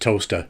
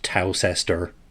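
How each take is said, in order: First: It is said like toaster, the British way. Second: It is said as spelled, the American way.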